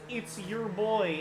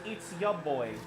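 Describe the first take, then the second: First: The word 'your' is said fully. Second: The word 'your' is reduced to 'ya'. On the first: The speaker calls it wrong. "nobody says" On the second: The speaker calls it right. "It's always"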